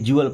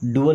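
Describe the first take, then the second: First: The syllable begins with a 'j' sound. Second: The syllable begins with a plain 'd' sound. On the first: The speaker calls it right. "जुअल पढ़ते ना" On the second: The speaker calls it wrong. "डुअल नहीं"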